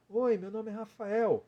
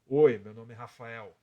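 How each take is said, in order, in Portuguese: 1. A voz é aguda, colocada na cabeça. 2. A voz é mais grossa e grave, sai do peito. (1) "É uma voz aguda" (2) "Agora eu vou tirar a voz de peito"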